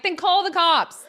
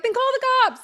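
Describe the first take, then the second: First: Sassy. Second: High, loud sassy comeback. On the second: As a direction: toss it back at her, defiant. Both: Retold or imitated. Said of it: "I'm a little sassy".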